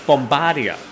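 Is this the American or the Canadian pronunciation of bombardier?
Canadian. The word is said the Canadian way. The speaker calls it right. "no, no, no, no, no, it's bombardier"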